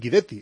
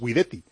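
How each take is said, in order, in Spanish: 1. El nombre tiene una pronunciación sueca. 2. El nombre tiene una pronunciación italiana. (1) "como él es sueco, al trasladarse a Suecia él prefiere que le llamen Guidetti" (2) "si el apellido Guidetti se pronuncia en italiano es Guidetti"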